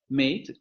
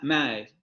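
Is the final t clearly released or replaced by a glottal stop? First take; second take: released; glottal stop. First: The vowel is closer and the t is released. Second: The vowel is opened and the t is glottalized. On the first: "de la recipronunciación como mate" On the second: "abre la vocal ma"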